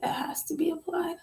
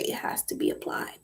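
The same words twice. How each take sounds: First: Soft higher whisper. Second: Said in the usual way. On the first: Real, not acted. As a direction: breathe it out as a secret.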